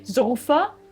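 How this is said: The word is said with a German pronunciation.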